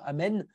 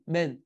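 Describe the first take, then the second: First: The word is said complete with every sound. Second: The opening vowel is dropped from the word. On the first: The speaker calls it right. "au lieu de dire Amen" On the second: The speaker calls it wrong. "je dis pas le A du début"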